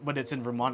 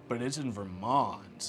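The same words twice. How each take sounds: First: It is said in a plain, matter-of-fact tone. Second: It is said in a disdainful, dismissive tone. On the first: The place is simply far away. "as in Vermont is far" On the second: The place itself is considered bad. "as if there's something wrong with Vermont"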